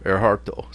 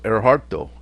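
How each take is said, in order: No difference in how they are said.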